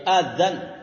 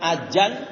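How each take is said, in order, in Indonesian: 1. Konsonan tengahnya bunyi th bersuara. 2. Konsonan tengahnya bunyi j. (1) "Pakai zal ya, pakai zal" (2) "Ada juga yang pakai jim"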